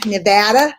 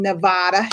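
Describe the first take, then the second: First: Nevada with the "a" of "cat", ne-VAD-a, as a question; Nevada with short "a". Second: Nevada with a broad "ah" in the middle, ne-VAH-da. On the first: Host checking with her guest how to say it, short-a pronunciation. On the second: Host introducing her guest from Nevada, broad "ah" pronunciation. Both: Shown as a demonstration. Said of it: "Is that how you say it?".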